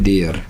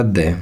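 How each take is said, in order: First: देयर with the R sounded; common wrong pronunciation. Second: दे with an open vowel, no R; corrected silent R. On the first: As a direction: say देयर as "de-yar", ending on R. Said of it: "देयर नहीं होता". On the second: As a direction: say दे as "deh" for "there". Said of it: "जिसको आप देयर कहते हो". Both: Shown as a demonstration.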